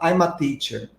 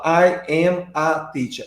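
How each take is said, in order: First: The words run together, linked and contracted. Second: Each word is said separately, without linking. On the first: The speaker calls it right. "eu falo" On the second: The speaker calls it wrong. "eu não falo"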